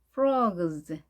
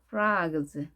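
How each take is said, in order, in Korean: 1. 이 모음은 둥글고, o에 가까운 중간 소리입니다. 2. 이 모음은 열린 ah 소리입니다. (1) "O와 I의 중간 소리" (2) "혹은 아 발음을 해서"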